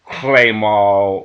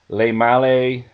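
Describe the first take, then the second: First: It has an exaggerated, forced French pronunciation. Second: It has a relaxed, plain English pronunciation. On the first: The speaker calls it wrong. "that just kind of seems forced and, and over emphatic" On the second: The speaker calls it right. "I would prefer um, pronunciations like"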